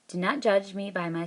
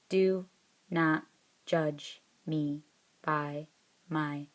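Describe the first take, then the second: First: The words flow together in one smooth phrase. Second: Each word is said separately, like a robot. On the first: The speaker calls it right. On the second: The speaker calls it wrong.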